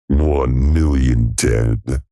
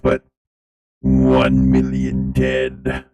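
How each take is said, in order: First: It is said in a dramatic trailer-narrator voice. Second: It is said in a flat robotic voice. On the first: The speaker calls it right. "let me do trailer guy for a minute" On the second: The speaker calls it wrong. "Feels bad doing this in this robot voice"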